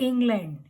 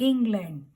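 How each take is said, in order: Both takes have the same delivery.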